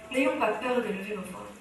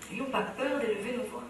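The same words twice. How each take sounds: The two takes are said the same way.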